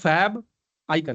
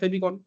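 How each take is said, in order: First: It is said as two separate words. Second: It is said as one run-together word. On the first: "pronounce करोगे दो word में तो होता है फैब आइकन" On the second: "हम ऐसे एक साथ बोलते हैं फेबिकॉन"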